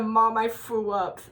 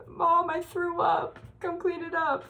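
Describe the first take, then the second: First: Said in the usual way. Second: Put-on high, slow pleading little kid; whiny sick kid voice. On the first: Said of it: "I'm like the". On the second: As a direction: whimper it like a sick child calling mom. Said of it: "I'm like".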